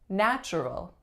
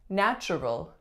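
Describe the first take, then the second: No difference in how they are said.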